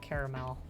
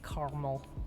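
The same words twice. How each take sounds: First: The middle A sound is pronounced. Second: The middle A sound is dropped. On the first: "I always say it caramel" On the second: "because then you're just destroying that A"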